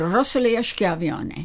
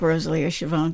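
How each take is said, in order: First: The surname has an Italian pronunciation. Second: The surname has an Americanized pronunciation. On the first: This is the original family pronunciation. "so my name is actually Rosalia Schiavone" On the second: This is the anglicized family pronunciation. "But I like Rosalia Schiavone, too"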